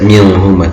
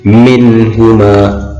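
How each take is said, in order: First: The n sound is muffled, not clearly pronounced. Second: The n sound is pronounced clearly and distinctly. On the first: The speaker calls it wrong. "tidak boleh dibaca minhuma" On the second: The speaker calls it right. "harus dibaca jelas"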